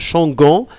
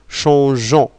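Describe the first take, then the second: First: The g is pronounced as a hard g. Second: The g is pronounced soft, like zh. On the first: The speaker calls it wrong. "on ne peut pas dire euh, changon" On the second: The speaker calls it right. "on doit laisser le E pour dire bien sûr changeons"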